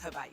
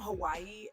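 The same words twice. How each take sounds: First: It is said with the native Hawaiian pronunciation. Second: It is said with the common English pronunciation. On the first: It is the true local name. "the correct correct pronunciation is" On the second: The listener can understand it. "say words the way that other people understand them"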